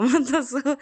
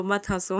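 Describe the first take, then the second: First: मत हंसो blurted through a laugh, pitched higher and louder. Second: Said in the usual way. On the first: Retold or imitated. Mother imitating the daughter's giggling, louder मत हंसो. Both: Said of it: "मेरे साथ मस्ती करने लगी".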